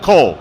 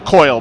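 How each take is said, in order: First: The vowel is a plain 'oh' sound, like 'coal'. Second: The vowel is an 'oy' sound, like 'coil'. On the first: The speaker calls it wrong. "That means coil" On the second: The speaker calls it right. "That means coil"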